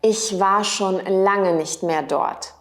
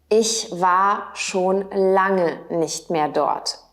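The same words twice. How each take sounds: First: Said in the usual way. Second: Slow, clear repeat for learners; careful slow teacher repeat; slowed model repeat. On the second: Shown as a demonstration. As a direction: say it again slowly so they can follow. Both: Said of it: "Auch möglich".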